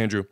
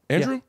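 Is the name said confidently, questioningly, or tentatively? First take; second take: confidently; questioningly. First: The name is said firmly and confidently. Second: The name is said as a question. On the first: The name has been confirmed. "then you say it the most confidently" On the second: The speaker asks whether the name is right. "Then you say it in a question"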